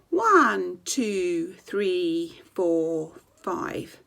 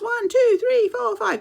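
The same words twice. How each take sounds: First: The numbers are counted slowly. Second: The numbers are counted fast.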